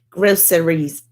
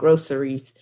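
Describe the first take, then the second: First: It is said in a Jersey City accent. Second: It is said in a plain, standard accent.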